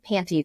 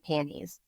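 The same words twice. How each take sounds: First: The T sound in the middle is pronounced. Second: The T sound in the middle is dropped. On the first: "I don't say panties" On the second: "I'd take the tea out"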